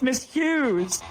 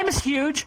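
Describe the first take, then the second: First: The name ends in a 'z' sound, like news. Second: The name ends in a 'j' sound, like huge. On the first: The name is given its proper pronunciation. The speaker calls it right. "It's pronounced Miss Hughes" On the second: The name is deliberately mispronounced to mock her. The speaker calls it wrong. "I would make sure to pronounce it just like that"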